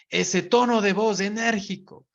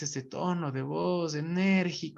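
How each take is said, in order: First: The voice is lively, firm and energetic. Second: The voice is sluggish, half lazy and unsure. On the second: "medio de pereza y medio inseguro"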